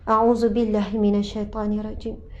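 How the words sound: It is said slowly and attentively. The words are recited with their meaning in mind. The speaker calls it right. "Sebut tu kena berserta dengan maksud"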